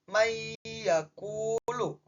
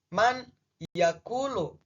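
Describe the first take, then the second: First: The n sound disappears, merged into the y. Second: The n sound is pronounced clearly before y. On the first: The rule of idgham is applied. "maka nunnya seakan-akan menghilang. Jadi dibaca" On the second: It is read literally, letter by letter. "Secara harfiah, secara rangkaian kata, baca awalannya itu"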